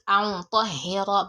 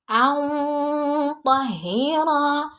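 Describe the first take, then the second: First: The nasal sound is short before 'ta'. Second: The nasal sound is held long before 'ta'. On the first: The speaker calls it wrong. "not an طهر" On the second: The speaker calls it right. "some seconds before I pronounce to, that means I prolonged"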